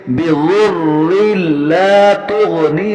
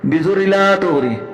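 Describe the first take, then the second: First: The doubled consonants are held clearly and separately. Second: The doubled consonants are weak and blurred. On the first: The speaker calls it right. "अलग अलग और वाज़ेह तरीके से अदा करना चाहिए" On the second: The speaker calls it wrong. "शद को सही तरीके से अदा नहीं करते"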